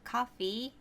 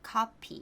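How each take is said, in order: First: The middle consonant is an F sound. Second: The middle consonant is a P sound.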